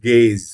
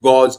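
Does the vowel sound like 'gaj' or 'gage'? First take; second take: gage; gaj. First: The vowel sounds like 'gage'. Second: The vowel sounds like 'gaj'. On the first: The speaker calls it right. "This is গেজ" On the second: The speaker calls it wrong. "This is not গজ"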